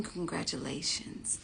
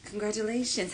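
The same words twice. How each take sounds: First: Slow, breathy whispered congratulations. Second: Said in the usual way. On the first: Acted. Congratulating those who secured a spot, in a slow whisper. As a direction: hush it like a secret.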